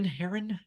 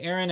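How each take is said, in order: First: The word starts with an H sound. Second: The word starts without an H sound. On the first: It names the bird. The speaker calls it right. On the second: It sounds like a person's name. The speaker calls it wrong.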